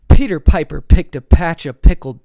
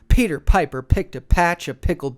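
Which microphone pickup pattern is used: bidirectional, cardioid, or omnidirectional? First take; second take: cardioid; omnidirectional. First: Recorded up close with a cardioid pickup pattern. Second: Recorded up close with an omnidirectional pickup pattern.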